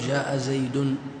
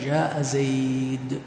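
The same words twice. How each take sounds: First: The last word ends with an added n sound. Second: The last word ends on the d sound. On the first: The speaker calls it wrong. "ما نأتي بالتنوين، ما نقول جاء زيد" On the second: The speaker calls it right. "نقف على الدال"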